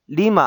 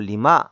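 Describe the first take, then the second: First: The stress is on the first syllable. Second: The stress is on the last syllable. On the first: The speaker calls it wrong. "리마 아니고" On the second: The speaker calls it right. "강세가 뒤에 있습니다"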